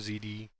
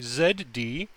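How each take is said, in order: First: It is said in a plain American way. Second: It is said in a British way.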